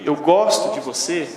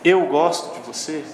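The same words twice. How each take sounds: First: The word gosto carries the emphasis. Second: The word eu carries the emphasis. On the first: It highlights the feeling of liking itself. "Eu gosto, é uma coisa" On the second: It points to who is doing the liking. "se é eu, você está dizendo que, que é com você"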